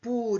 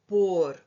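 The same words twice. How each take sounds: First: "por" with the vowel reduced to u, like "pur"; slow teacher's demo of "por" sounding as "pur"; preposition por. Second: "pôr" stressed, with a closed o; slow, stressed "pôr" with clear o; verb pôr. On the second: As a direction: say "pôr" as a full stressed word with a long o. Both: Shown as a demonstration. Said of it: "para distinguirmos da preposição por".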